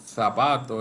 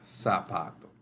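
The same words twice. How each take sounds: First: The first sound is a distinct z or th sound. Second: The first sound is a plain s sound. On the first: The speaker calls it wrong. "no es tampoco zapato" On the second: The speaker calls it right. "es zapato"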